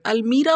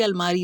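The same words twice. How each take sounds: First: "अलमीरा" with long ee in the middle; variant pronunciation. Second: "अलमारी" with long aa in the middle; alternative pronunciation. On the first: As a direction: say "अलमीरा", stressing a long मी before रा. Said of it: "लोग इसे अलमीरा कहते हैं". ("अलमीरा" में बीच का स्वर लंबी ई) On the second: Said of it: "कौन सा सही वाला वर्ड है". ("अलमारी" में बीच में लंबा आ, अंत में ई) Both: Shown as a demonstration.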